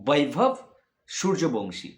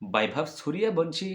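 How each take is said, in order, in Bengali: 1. নামটি বাংলা ধ্বনি দিয়ে উচ্চারণ করা হয়েছে। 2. নামটি হিন্দি ধ্বনি দিয়ে উচ্চারণ করা হয়েছে। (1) "বাংলাতে উচ্চারণ করতে গেলে" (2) "হিন্দি বললাম"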